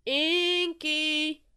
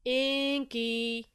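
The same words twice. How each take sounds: First: High, long, loud holler; louder calling. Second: Drawn-out call, louder than talk; first call, held long on INKY. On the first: Friend trying harder to reach Inky, louder high call. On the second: Friend calling for Inky outside his den, calling out. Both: A narrator's reading. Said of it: "he heard a familiar voice call".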